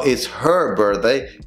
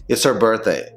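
First: Slow "her" with clear H; full H. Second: "It's her birthday" as "itser birthday"; dropped H. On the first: Teacher showing the wrong version, slow full H. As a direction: separate and stress HER. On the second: Teacher correcting, linked pronunciation. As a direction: glide into "her" without its H. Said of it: "Te vas a comer la H". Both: Shown as a demonstration.

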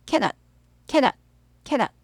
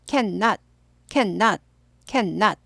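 First: "Cannot" as brief ka-not; single N. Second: "Cannot" as can-not, long N; both Ns sounded. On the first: Teacher models for learners to repeat, single N. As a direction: drill it quickly with one N. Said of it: "N이 하나만 발음돼요". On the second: Teacher models for learners to repeat, both Ns sounded. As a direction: drill it as two even parts. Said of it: "N 둘 다 발음됩니다". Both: Shown as a demonstration.

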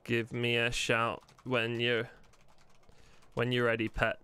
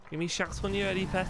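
First: Said in the usual way. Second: Higher-pitched put-on character voice; character voice demo. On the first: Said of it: "That's how he's gonna talk". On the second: Shown as a demonstration. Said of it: "That's how he's gonna talk, like that".

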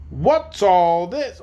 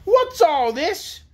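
First: Slow demand near the usual pitch; mildly stern demand. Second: High, slow, imperious demand; harsh demand. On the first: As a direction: draw out the question, mildly demanding. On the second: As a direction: demand it much higher, drawing out the words. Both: A narrator's reading. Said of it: "demanded a harsh voice".

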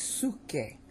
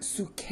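First: Suke with SU stressed and KE dropping; correct stress on SU. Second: Suke pitched up and stretched on KE; wrong stress on KE. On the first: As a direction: say "suke" as SU-kay. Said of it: "it's suke". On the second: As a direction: show "suke" wrongly as su-KAY. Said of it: "But this is not suke". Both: Shown as a demonstration.

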